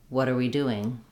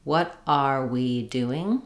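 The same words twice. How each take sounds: First: "What are we doing" run together, "what are" like "water"; linked fluent form. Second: "What are we doing" very slow, each word apart, rising; careful full form. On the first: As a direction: link "What are we doing" in one smooth flow. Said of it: "it sounds like". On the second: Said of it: "Repeat after me for the following phrases". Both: Shown as a demonstration.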